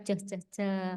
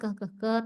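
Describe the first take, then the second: First: The consonant is a ch sound. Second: The consonant is a hard k sound. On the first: This is how the letter sounds in Indonesian. "kalau di Indonesia ceh ceh ceh" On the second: This is how the letter sounds in English. "letter C, itu suaranya kan keh keh keh"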